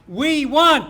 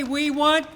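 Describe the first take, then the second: First: "We want" shouted loud, falling hard; call-and-response call. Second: Said in the usual way. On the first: Real, not acted. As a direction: bark "We want" to cue the crowd. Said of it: "When I say we want you respond". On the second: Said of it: "When I say".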